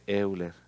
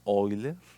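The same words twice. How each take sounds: First: The name begins with an 'eh-oo' sound. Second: The name begins with an 'oy' sound. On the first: This follows the written spelling. "pero se escribe Euler" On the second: This is the German pronunciation. "En alemán se pronuncia Euler"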